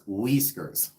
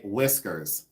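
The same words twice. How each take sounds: First: The first vowel is a long 'ee' sound. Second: The first vowel is a short 'i' sound. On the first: This is how the cat's owner says the name. "He says Whiskers. ... it's spelled W E E E S K E R S" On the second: This is the ordinary way to say the name. "Jeremy doesn't say Whiskers"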